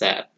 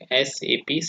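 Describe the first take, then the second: First: It is said as one single word. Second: Each letter is said separately. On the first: The speaker calls it wrong. "not as S A P" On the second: The speaker calls it right. "we should pronounce it is like S A P separately"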